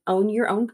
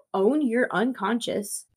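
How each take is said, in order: First: "Own Your Own" read as a slip, quick and unsure; misread title. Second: "Own Your Unconscious" said slowly and carefully; corrected title. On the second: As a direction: fix it to "Own Your Unconscious", deliberately slow. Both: Real, not acted.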